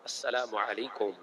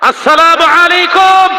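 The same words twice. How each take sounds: First: It is said at normal loudness. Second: It is said loudest of all.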